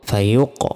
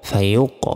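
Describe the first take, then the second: Both takes have the same delivery.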